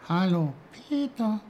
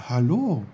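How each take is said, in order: First: High, tiny snowdrop voice; little high-pitched greeting; small quiet voice. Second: Put-on louder, higher boy's hello; raised, lively hello; Peter's greeting. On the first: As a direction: speak up as a tiny flower from the ground. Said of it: "sagte eine leise Stimme". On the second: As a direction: answer the little voice in surprise. Peter answers the flower. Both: A narrator's reading.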